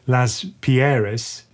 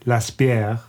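First: The name is pronounced the German way. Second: The name is pronounced the French way. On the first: "if you're German, you say" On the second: "If you're French, you say"

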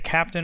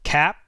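First: The P is released before a full vowel. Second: The P is unreleased, then a nasal sound. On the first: "you can either say captain" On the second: "you don't release the P. You just say cap"

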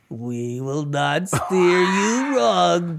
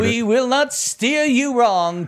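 First: It is said in a put-on imitated voice. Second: It is said in the speaker's own voice. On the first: "Now do it in her voice" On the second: "Now do it"

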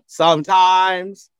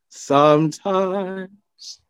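First: The stress falls on the second syllable. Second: The stress falls on the first syllable. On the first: The speaker calls it wrong. "It's not sometimes" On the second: The speaker calls it right. "it's sometimes"

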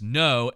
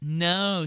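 First: The no sounds firm and serious. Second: The no sounds playful and flirtatious. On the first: The person really means no. "someone saying no" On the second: The person does not really mean no. "the flirtatious no"

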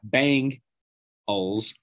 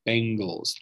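First: The first syllable sounds like bang. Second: The first syllable sounds like ben. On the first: The speaker calls it wrong. "It's not Bengals, like B-A-N-G" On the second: The speaker calls it right. "Bengals, like B-E-N, Ben"

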